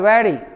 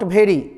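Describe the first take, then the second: First: The word begins with a v sound. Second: The word begins with a bh sound. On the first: The speaker calls it right. "भ नहीं बोलना है व" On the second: The speaker calls it wrong. "Note"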